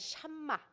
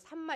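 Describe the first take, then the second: First: The word begins with a stronger sh sound. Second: The word begins with a plain s sound. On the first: "조금 발음을 세게 하면 샴마" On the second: "우리 번역으로는 삼마 이렇게 되어 있는데"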